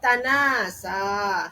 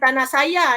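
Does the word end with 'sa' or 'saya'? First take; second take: sa; saya. First: The word ends with a long 'a' vowel. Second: The word ends with an extra final 'ya' syllable. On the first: The speaker calls it right. "tapi apa?" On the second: The speaker calls it wrong. "Jadi bukan tanah saya ya"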